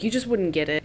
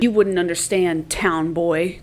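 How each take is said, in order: First: Said in the usual way. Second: A haughty brush-off aimed at him; snide dismissal. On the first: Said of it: "but she's like". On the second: Shown as a demonstration. Katniss brushing off Peeta's question with a snide sneer. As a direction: sneer down at the town boy. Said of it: "No, she doesn't say it like that".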